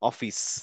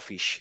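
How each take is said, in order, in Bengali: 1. শব্দটি সাধারণ s উচ্চারণে শেষ হয়। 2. শব্দটি sh উচ্চারণে শেষ হয়। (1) "কিন্তু বলার সময় কেউ বলে না যে অফিস" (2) "কিন্তু মুখে বলি অফিস"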